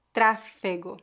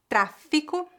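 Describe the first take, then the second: First: Tráfego, stressed on the first syllable with E. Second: Tráfico, stressed on the first syllable with I. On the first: Teacher contrasts it with tráfico for repetition, slow and clear. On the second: Teacher models the word for students to repeat, crisp and clear. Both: Shown as a demonstration. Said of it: "Repita depois de mim".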